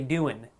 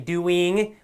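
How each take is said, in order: First: The final G sound is dropped. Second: The final G sound is clearly pronounced.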